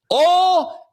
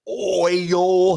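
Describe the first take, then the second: First: High country "oil" flattened to "awl"; loud, high-pitched country "awl" for "oil"; country pronunciation. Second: "oil" drawn out in two clear syllables, "oy-yul"; carefully over-enunciated "oil". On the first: Retold or imitated. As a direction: mimic a country man's "oil" as one long "awl". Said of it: "His enunciation was". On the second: Shown as a demonstration. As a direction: sound out "oil" slowly with the full oy glide. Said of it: "He didn't, like, try to, like".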